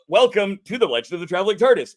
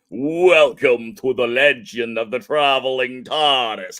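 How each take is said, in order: First: It is said in a normal voice. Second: It is said in a spooky voice.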